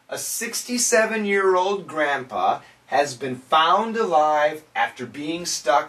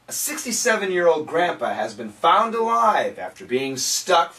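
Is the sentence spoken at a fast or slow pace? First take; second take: slow; fast. First: The sentence is spoken at a slower, careful pace. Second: The sentence is spoken at a fast pace. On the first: "let's say it together" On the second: "I'll say it quickly"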